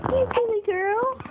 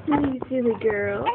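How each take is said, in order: First: Much higher, sing-song teasing. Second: Said in the usual way. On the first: Real, not acted. Mother teasing baby girl, high cooing baby talk. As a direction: tease her gently up high.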